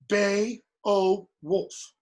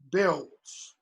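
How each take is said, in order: First: The first vowels are split into two syllables. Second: The first vowels glide together as one syllable. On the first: The speaker calls it wrong. "You don't say" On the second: The speaker calls it right. "it's one sound, it's one syllable"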